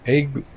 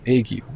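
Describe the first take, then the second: First: It is said as one short syllable. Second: It is said as two syllables, starting with A.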